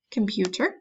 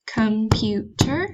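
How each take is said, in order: First: Said in the usual way. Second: Computer said slowly, COM-PU-TER; slow teacher count of Computer; syllables tapped out. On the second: Shown as a demonstration. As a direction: give Computer one beat per syllable. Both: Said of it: "saying these and clapping on your table".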